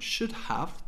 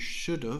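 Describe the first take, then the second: First: Both words are fully pronounced, with the h. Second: The second word is reduced to a short 'of'.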